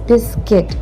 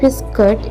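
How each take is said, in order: First: The second syllable is said as 'kit'. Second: The second syllable is said as 'kut'. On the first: The speaker calls it right. "It's बिस्किट" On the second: The speaker calls it wrong. "अक्सर लोग बिस्कुट कहते हैं but it's not बिस्कुट"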